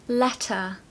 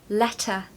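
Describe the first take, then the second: The two takes are said the same way.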